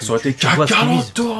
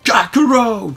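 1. Le nom se dit sans prononciation à l'anglaise. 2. Le nom se dit avec une prononciation à l'anglaise.

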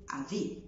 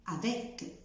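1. الحرف الأخير لا يُنطق. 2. الحرف الأخير يُنطق.

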